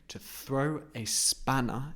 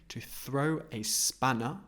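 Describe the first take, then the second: The two takes are said the same way.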